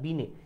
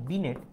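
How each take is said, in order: First: The word ends on a vowel, no t. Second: The word ends with a sounded t. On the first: This is the original pronunciation. The speaker calls it right. "আসল উচ্চারণটা বিনে" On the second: This is how English speakers say it. The speaker calls it wrong. "ইংরেজিতে বিনেট"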